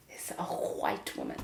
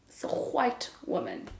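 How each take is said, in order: First: Whispered punchline. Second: Said in the usual way. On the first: Shown as a demonstration. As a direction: drop to a low whisper for the reveal. Punchline about her Afrikaans accent.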